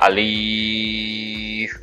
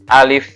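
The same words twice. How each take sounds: First: The vowel is drawn out longer than one beat. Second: The vowel is held short, one beat. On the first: The speaker calls it wrong. "bukan alif, itu bukan" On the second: The speaker calls it right. "alif itu satu ya. Contoh gini, alif gitu ya"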